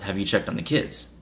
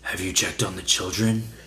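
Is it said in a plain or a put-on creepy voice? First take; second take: plain; put-on creepy. First: It is said in her plain voice. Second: It is said in the caller's creepy voice.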